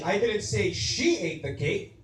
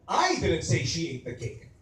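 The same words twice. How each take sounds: First: The stress falls on the word she. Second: The stress falls on the word I. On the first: Someone else ate it. "or she" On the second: Someone else said it. "Maybe you said it, I didn't"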